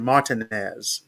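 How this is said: The name has a French pronunciation. This is how people in the region say it. "In Louisiana, we tend to say Martinez, the uh, French pronunciation"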